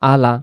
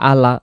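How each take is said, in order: No difference in how they are said.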